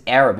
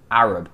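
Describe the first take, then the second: First: ARAB said as "AIR-ub"; American pronunciation of Arab, first syllable like "air". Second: ARAB said as "ARR-ub"; British pronunciation of Arab, short a as in "cat". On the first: Retold or imitated. Coach quoting how he says it, Arab as "AIR-ub". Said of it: "He says Arab instead of Arab". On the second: Shown as a demonstration. Coach giving the word he should say, Arab as "ARR-ub". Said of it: "instead of Arab".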